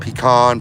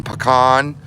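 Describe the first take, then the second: First: Pecan said with pee-kahn, stress on the kahn. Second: Pecan said with puh-kahn, rising tune. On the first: Asking viewers how to say it, Pecan as pee-kahn. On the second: Asking viewers how to say it, pecan as puh-kahn. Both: Shown as a demonstration. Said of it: "Do you say pecan or pecan".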